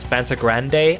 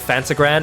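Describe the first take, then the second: First: The name ends with an extra vowel sound. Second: The name ends without an extra vowel sound. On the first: "it's Fantagrande" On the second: "instead of Fantagrand"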